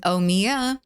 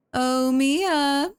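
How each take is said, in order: First: Said in the usual way. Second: High, sing-song call; calling the pet. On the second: Real, not acted. Streamer calling out to Mia, high sing-song call. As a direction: draw the name out high to coax. Calls the pet again, much higher.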